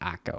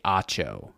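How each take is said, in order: First: The middle consonant is a 'k' sound. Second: The middle consonant is a 'ch' sound. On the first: The speaker calls it wrong. "and not Akko" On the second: The speaker calls it right. "All I ask is that you say Acho"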